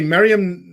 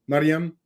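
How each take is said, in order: First: The name is said with American English sounds. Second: The name is said with Arabic sounds.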